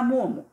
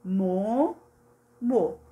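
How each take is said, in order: First: Said in the usual way. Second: "Mo, mo" as two separate beats; syllable by syllable. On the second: Shown as a demonstration. Teacher showing one object per syllable, split "Mo, mo". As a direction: pause clearly between "Mo" and "mo". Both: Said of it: "um se refere a cada sílaba".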